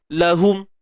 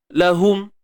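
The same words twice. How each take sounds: No difference in how they are said.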